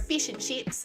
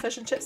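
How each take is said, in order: First: It is said with an Australian accent. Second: It is said with a New Zealand accent.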